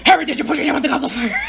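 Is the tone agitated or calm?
agitated. The question is asked in an agitated, forceful tone. This is how the film played the moment. The speaker calls it wrong. "As opposed to saying, like"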